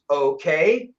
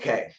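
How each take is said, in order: First: The pitch rises at the end. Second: The pitch falls at the end. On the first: It is an uncertain question. "that's a question mark" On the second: It is a firm statement of agreement. "my okay went down"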